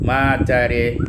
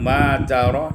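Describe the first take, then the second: First: The final vowel leans toward an e sound. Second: The final vowel is an open a sound.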